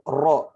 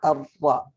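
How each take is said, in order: First: The R is followed by a plain O sound. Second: The R is followed by a vowel other than O. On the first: The speaker calls it wrong. "R tambah O, ro, dan disitulah letak kesalahannya" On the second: The speaker calls it right. "bukan R tambah O, dia ada penyebutan sendirinya"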